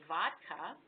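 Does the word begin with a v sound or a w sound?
v sound. The word begins with a v sound. "We in America say vodka"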